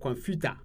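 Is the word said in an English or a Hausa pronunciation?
Hausa. It is said with a Hausa pronunciation. "Hausa, they say computer"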